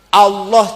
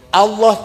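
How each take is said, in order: The two takes are said the same way.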